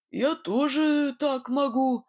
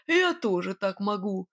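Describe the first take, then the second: First: Slow, wavering boast as confidence melts; faltering boast. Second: Insisting. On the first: Nightingale, losing to the unseen rival: slow, faltering boast. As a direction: insist though you no longer believe it. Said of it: "его уверенность таяла на глазах". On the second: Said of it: "твердил Свистун". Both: A narrator's reading.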